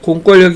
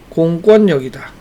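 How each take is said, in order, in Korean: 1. 가운데 자음은 L 소리로 납니다. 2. 가운데 자음은 N 소리로 납니다. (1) "아니라" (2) "유마의 예외"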